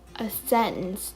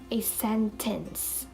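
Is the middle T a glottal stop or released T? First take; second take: glottal stop; released T. First: The middle T is a glottal stop. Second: The middle T is fully released. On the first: The speaker calls it right. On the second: The speaker calls it wrong.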